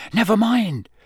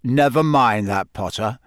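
First: Higher, hasty dismissal; quick brush-off. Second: Gruff, growled brush-off; growling. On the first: Harry covering for Hagrid, quickly dismissive. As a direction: brush the question aside quickly. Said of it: "said Harry quickly". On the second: Moody overriding Harry's excuse about class, growling. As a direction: growl the objection aside. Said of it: "he growled". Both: A narrator's reading.

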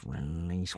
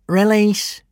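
First: "release" said much softer, mumbled to himself; muttering. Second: "release" said higher and louder, a firm order; firm command. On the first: Prefect searches his phrasebook for the word, "release" muttered softly. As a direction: mumble "release" under your breath. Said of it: "muttering to himself". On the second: Prefect commands the gronkel to drop the kidnapper, "release" given loud and firm. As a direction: order the dragon to let go with "release". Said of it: "he said to the gronkel". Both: A narrator's reading.

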